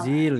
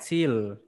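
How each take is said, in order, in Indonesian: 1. Kata ini diawali dengan bunyi z biasa. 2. Kata ini diawali dengan bunyi ts. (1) "Bukan zil ya" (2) "huruf Z dia dibaca seperti huruf T S"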